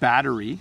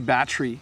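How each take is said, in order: First: The syllables are said clearly and separately. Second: The syllables are slurred together into fewer beats. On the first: "the syllables are nicely separated" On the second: "so we kind of slur it together"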